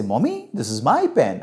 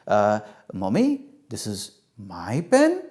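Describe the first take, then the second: First: Said in the usual way. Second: Slow, unsure, rising into a question; hesitant and drawn out, lifting at the end; tentative child. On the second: Acted. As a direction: try the answer out, seeking approval. Child hesitantly tries corrected answer.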